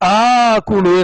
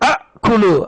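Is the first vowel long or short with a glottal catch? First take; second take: long; short. First: The first vowel is long with no catch. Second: A short first vowel followed by a glottal catch.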